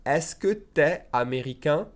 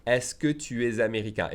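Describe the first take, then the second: First: "tu es" shortened to "t'es", rising on "américain"; fast-speech contraction. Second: Said in the usual way. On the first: Shown as a demonstration. Teacher shows learners fast speech, "tu es" contracted to "t'es". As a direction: squash "tu es" into one syllable, "t'es". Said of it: "If I say it fast, we say". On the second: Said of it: "If I say it fast".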